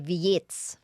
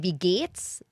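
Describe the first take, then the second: First: It is said in a Berlin accent. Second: It is said in standard German.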